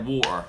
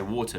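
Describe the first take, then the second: First: "water" with the t dropped to a glottal stop; old home accent on "water", t swallowed. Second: "water" with the t clearly sounded; London-influenced "water", t pronounced; present-day "water". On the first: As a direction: say "water" as wa'er, no t. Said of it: "that was my accent". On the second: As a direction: say "water" with a crisp t in the middle. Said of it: "the way I say water now". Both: Shown as a demonstration.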